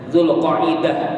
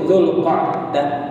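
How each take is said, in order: First: An extra vowel splits the middle, four syllables. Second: No extra vowel in the middle, three syllables. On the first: This is how local people commonly say it. The speaker calls it wrong. "kalau orang Banjar menyebut Dzulqa'dah itu Dzulqa'idah" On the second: This is the proper form of the name. The speaker calls it right. "tapi yang bujur itu Dzulqa'dah"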